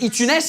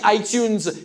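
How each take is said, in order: First: It is said with a French accent. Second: It is said with an English accent.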